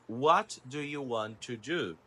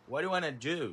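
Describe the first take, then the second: First: Want and to are said as separate words. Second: Want and to blend into one word, wanna.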